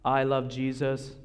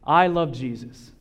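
First: The voice is flat, with no emotion. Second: The voice is lively, with strong emotion. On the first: "What's wrong with it? What, it's like a robot?" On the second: "My face. My intonations"

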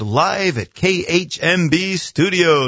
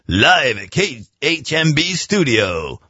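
First: It is said in a plain speaking voice. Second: It is said in a put-on announcer voice.

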